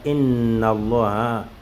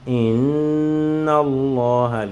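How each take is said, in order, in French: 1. Le son nasal doublé est coupé court. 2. Le son nasal doublé est tenu pendant deux temps. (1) "on ne dit pas Inna Allah" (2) "le ronna c'est en deux mouvements"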